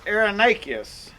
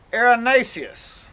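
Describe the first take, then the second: First: Erinaceus with the c said as a k; hard k sound in the middle of erinaceus; hard-c pronunciation. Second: Erinaceus with the c said as an s; soft s sound in the middle of erinaceus; soft-c pronunciation. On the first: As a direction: say erinaceus ending in "nay-key-us". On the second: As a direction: say erinaceus ending in "nay-see-us". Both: Shown as a demonstration. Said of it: "how that is pronounced".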